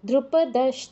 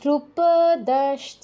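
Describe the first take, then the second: First: The vowel of 'da' is kept short. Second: The vowel of 'da' is drawn out long. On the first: The speaker calls it right. "দতে দীর্ঘ করা করা যাবে না" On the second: The speaker calls it wrong. "দ্রুপদশ্চ এরকম বলা যাবে না।"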